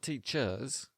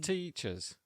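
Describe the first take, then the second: First: The stress is on the second syllable. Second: The stress is on the first syllable. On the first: The speaker calls it wrong. "Not teachers" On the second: The speaker calls it right. "The stress is on the first syllable"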